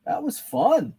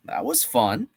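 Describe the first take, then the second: First: Bright pitch jump on fun; gleeful, reacting to a fun reveal; excited. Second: Said in the usual way. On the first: Real, not acted. Host to chat, thrilled at the reveal, excited.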